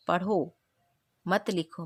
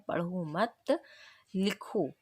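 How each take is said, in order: First: पढ़ो alone, a clear pause, then मत लिखो; pause after पढ़ो. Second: पढ़ो मत run together, a pause, then लिखो; pause after मत. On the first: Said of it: "इसलिए यहाँ पर अल्प विराम लगा है". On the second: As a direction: join मत to पढ़ो and set लिखो apart. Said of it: "इसी तरह से यहाँ पर है". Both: Shown as a demonstration.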